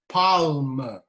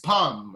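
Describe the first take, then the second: First: The L is pronounced in the word. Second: The L is silent in the word. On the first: The speaker calls it wrong. "it is not palm. That's how I used to say when I was in school" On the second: The speaker calls it right. "but it is palm"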